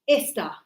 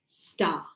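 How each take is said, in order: First: An extra vowel sound comes before the word. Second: The word starts directly with its first consonant. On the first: The speaker calls it wrong. "Not esta. No. No e. Because that's Spanish" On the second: The speaker calls it right. "We say star"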